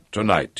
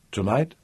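First: "Tonight" falling as a settled answer; confirming. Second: "Tonight" softly lifted into a question. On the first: Coste answers Piera's question, "Tonight" falling in confirmation. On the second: Piera asks when he returns, "Tonight" rising as a question. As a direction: ask "Tonight" gently, with rising tune. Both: A narrator's reading.

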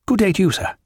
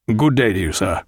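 First: High-pitched officious farewell; huffy young captain. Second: Curt farewell. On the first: Dixon returning Jack's farewell, huffy and high. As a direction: return the courtesy in a high, stiff voice. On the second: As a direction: keep it down and formal, falling on sir. Jack takes curt leave. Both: A narrator's reading.

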